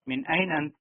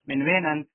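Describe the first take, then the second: First: The middle word begins with a vowel sound. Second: The middle word begins with a w sound. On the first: "असल वर्ड यही है एन" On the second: "वेन"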